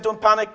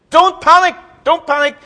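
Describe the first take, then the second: First: Said in the usual way. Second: High, loud, flustered cry of don't panic; Corporal Jones panicking. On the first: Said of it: "Who was it in Dad's army said". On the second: Retold or imitated. Preacher mimics Dad's Army's Corporal Jones, panicky high shout. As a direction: play the frantic old soldier yelling not to panic. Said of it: "as he panicked".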